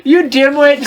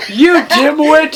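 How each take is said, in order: First: Mock angry insult. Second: Slow hammed-up snarl of an insult; mock angry insult. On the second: Reading Snape's line, insulting the narrator. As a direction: spit the insult out slowly. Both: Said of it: "Snake began to shoot angrily".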